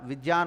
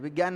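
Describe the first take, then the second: First: The middle consonant sounds like a j. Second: The middle consonant sounds like a g. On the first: The speaker calls it right. "विज्ञान होता है" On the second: The speaker calls it wrong. "विज्ञान नहीं होता"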